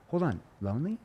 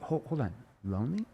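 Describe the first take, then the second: First: Higher, puzzled "Hold on, lonely?" with rising end; genuinely confused question. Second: Puzzled interruption, lonely quietly rising; confused tone. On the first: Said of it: "I have to use that confused tone". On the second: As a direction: stop them gently, confused. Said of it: "And I have the confused tone". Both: Shown as a demonstration.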